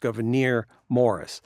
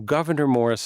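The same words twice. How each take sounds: First: The first name is stressed on its last syllable. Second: The first name is stressed on its first syllable. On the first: "it's two accented syllables in a row" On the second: "is fine too"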